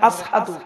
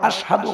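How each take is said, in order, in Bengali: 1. মাঝের ব্যঞ্জনটি একটি সাধারণ 's' ধ্বনি। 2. মাঝের ব্যঞ্জনটি একটি স্পষ্ট 'sh' ধ্বনি। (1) "কারণ জিব্বে কি দেই" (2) "হই না পারে"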